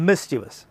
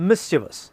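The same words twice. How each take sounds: The two takes are said the same way.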